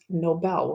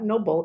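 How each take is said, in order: First: The stress is on the second syllable. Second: The stress is on the first syllable. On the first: The speaker calls it right. "we say the strength on the B E L" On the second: The speaker calls it wrong. "It's not noble"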